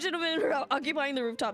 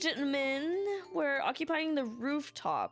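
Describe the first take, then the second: First: It is read in the speaker's normal accent. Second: It is read in a put-on British accent.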